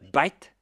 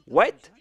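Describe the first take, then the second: First: The word begins with a B sound. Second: The word begins with a W sound.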